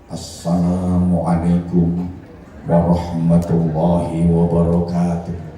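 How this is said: It is delivered like a formal speech. It suits opening a speech. "Pidato beda lagi"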